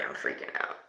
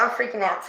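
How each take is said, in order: First: Whispered, breathless with fear; frightened whisper. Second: Said in the usual way. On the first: Real, not acted. Medium spooked by the spirit box, whispering her fear. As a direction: whisper it as if the spirit might hear.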